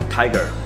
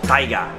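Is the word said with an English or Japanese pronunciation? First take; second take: English; Japanese. First: It is said with an English pronunciation. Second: It is said with a Japanese katakana pronunciation. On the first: "It is made of 7 words" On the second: "because it is written in katakana, so this is how you actually pronounce it"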